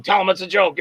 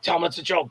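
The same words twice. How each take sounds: First: Said in the usual way. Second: Softer hushed take of Tell him it's a joke; whispering. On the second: Retold or imitated. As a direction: urge it under the breath. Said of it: "Sal's whispering to me".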